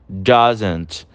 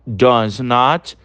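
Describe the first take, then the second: First: "doesn't" said as one short word; contracted form. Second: "does not" said as two full words; full form. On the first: Teacher giving students the contracted form, one short word. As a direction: squeeze it into "doesn't". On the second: Teacher contrasting the full form for students, each word clear. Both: Shown as a demonstration. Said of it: "E o does not nós também temos".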